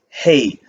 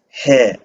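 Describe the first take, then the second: First: The vowel is a gliding 'ay' sound. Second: The vowel is a plain 'eh' sound. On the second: "We would pronounce it as he"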